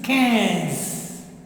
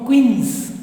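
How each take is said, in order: First: The vowel is nasal, not an 'ee' sound. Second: The vowel is an 'ee' sound, like 'queens'. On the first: The speaker calls it right. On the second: The speaker calls it wrong.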